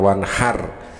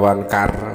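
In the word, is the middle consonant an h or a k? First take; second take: h; k. First: The middle consonant is a breathy h sound. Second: The middle consonant is a hard k sound. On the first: The speaker calls it right. "Itu yang benar" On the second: The speaker calls it wrong. "tidak bisa membedakan antara huruf H dengan huruf kaf"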